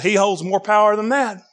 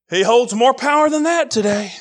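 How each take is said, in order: First: Said in the usual way. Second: Shouted repeat. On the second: Acted. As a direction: raise it to a shout on the repeat, punching "that". Repeats line, second time shouted.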